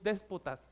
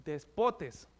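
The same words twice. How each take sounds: First: "déspotas" said as the wrong form; "déspotas" with the Spanish ending -as, set aside; wrong word rejected. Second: "despotes" said in Greek, ending in -tes; "despotes", the Greek word, said carefully; Greek pronunciation. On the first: The preacher sets aside "déspotas" for the Greek word. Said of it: "no es déspotas". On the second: The preacher gives the congregation the Greek word, said carefully. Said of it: "Eso significa en griego". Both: Shown as a demonstration.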